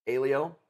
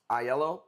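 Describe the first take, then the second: First: Alio said as AY-lee-oh; Alio, AY-lee-oh, the way the family says it; family pronunciation. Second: Aiello said as eye-ELL-oh; correct spelling-based pronunciation. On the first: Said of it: "people said Alio". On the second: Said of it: "we pronounce it Alio". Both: Shown as a demonstration.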